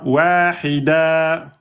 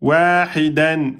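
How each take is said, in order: First: The word ends on a lengthened vowel. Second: The word ends with an n sound.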